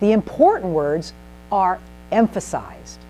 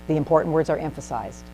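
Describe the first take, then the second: First: It is said with melody and emphasized words. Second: It is said in a flat monotone. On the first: The speaker calls it right. "I'm saying" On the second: The speaker calls it wrong. "Instead of saying"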